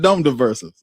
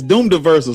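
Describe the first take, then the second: First: The first word has a short 'uh' vowel. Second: The first word has a long 'oo' vowel. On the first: The speaker calls it wrong. "not Dumb Diversals" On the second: The speaker calls it right. "it's Doom Diversals"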